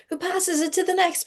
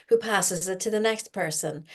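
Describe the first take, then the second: First: Repeated line jumps way up, playful; much higher pitch. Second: Said in the usual way. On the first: Shown as a demonstration. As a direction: lift it high like a game building.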